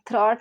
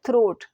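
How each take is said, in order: First: The vowel is an open 'aw' sound. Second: The vowel is a long 'oh' sound. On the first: The speaker calls it wrong. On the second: The speaker calls it right.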